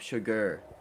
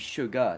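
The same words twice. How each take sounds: First: The word ends with an 'er' sound. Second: The word ends with an open 'ah' sound. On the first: The speaker calls it wrong. "she's gonna put an E R in that instead of an A H" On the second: The speaker calls it right. "it should be sugar"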